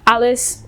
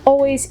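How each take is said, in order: First: It is said short, like 'allus', in Yorkshire style. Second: It is said in full, in standard English style.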